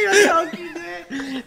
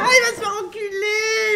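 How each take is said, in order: First: Slow, high laughing repeat. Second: Slow, high wailing laugh; laugh-crying shout. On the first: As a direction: say it while laughing. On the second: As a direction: wail it through laughter. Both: Real, not acted.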